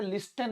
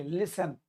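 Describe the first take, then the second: First: "लिस्टन" with the T sounded; mispronounced "लिस्टन", silent letter voiced as T; T pronounced. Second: "लिसन" with no T sound; silent T. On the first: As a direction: say "लिस्टन" wrongly, pronouncing a T after the S. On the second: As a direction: say "लिसन", the S running straight into the final syllable. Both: Shown as a demonstration. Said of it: "यहाँ पर टी silent है".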